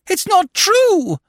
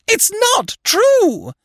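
First: High, slow, loud scream of denial. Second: Very high, slow, loud scream. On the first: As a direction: scream it in disbelief. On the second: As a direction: scream it again, still higher. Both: A narrator's reading. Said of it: "she screamed".

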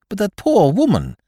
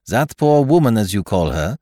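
First: High-pitched, loud, concerned objection; distressed protest. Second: French detective quoting back, "woman" falling; French-accented echo. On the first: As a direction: plead on someone's behalf, voice raised high. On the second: Poirot echoes companion's words. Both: Acted.

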